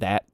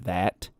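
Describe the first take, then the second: First: The final T sound is short and crisp. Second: The final T sound is drawn out long. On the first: "instead of" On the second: "words that end in T, I tend to drag out really long"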